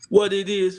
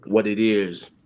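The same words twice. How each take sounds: First: What it is said high and bright; high playful greeting. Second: Said in the usual way. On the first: Shown as a demonstration.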